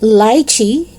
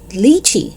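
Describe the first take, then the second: First: It is said with a British pronunciation. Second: It is said with an American pronunciation. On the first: "if it's British" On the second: "if it's American"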